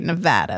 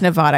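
First: It is said the way Nevada locals say it. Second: It is said the way outsiders say it.

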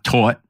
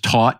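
First: The word is said in a Yonkers accent. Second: The word is said in a standard accent. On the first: The speaker calls it wrong. "not taught" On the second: The speaker calls it right. "the word is taught"

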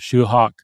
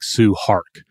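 First: The name begins with an sh sound. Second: The name begins with an s sound. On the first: The speaker calls it right. "sort of a Shoe Hawk" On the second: The speaker calls it wrong. "it looks kind of like Sue Hark"

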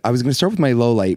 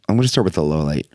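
First: It is said in his normal voice. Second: It is said in a put-on radio voice.

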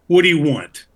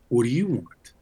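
First: It sounds angry and demanding. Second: It sounds questioning and puzzled.

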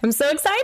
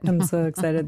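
First: It is said in a lively, excited tone. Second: It is said in a flat, unexcited tone.

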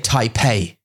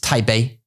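First: The name is said with an English pronunciation. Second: The name is said with a Mandarin pronunciation. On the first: "English people will say Taipei" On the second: "it's Taipei. If you know Zhongwen"

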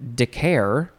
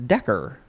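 First: The word ends with an 'air' sound. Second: The word ends with an 'er' sound. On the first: The speaker calls it wrong. "I would want to pronounce it decare" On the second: The speaker calls it right. "but it is it's decker"

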